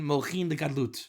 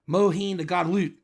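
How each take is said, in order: First: It is said carefully with a final t. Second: It is said with a Texan drawl. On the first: "As they say in proper pronunciation" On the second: "As they call it in Texan Kabbalah"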